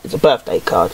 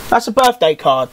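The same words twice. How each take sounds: First: Low, flat-toned announcement of the obvious; mock deep voice. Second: Said in the usual way. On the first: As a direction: drop much lower for a deadpan repeat. Deadpan low repeat.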